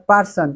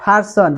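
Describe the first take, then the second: First: 'person' with a hard breathless p; wrong pronunciation. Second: 'person' with a puff of air on the p; corrected pronunciation. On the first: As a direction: demonstrate 'person' as Bengali 'parson', no puff. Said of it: "it's not person". (ভুল উচ্চারণে 'person', শ্বাসহীন প) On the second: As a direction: model 'person' as 'pharson'. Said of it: "you have to say person". (শুদ্ধ উচ্চারণে 'person', ফারসন) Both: Shown as a demonstration.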